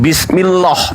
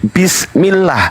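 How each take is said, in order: First: The l sound in lah is thick and heavy. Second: The l sound in lah is thin and light. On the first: The speaker calls it wrong. "bukan bismillah, bukan" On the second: The speaker calls it right. "tapi bismillah ... maka dibaca tarkik. Tarkik itu tipis"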